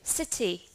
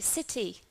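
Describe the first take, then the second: First: It has a British accent with a clear T. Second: The same.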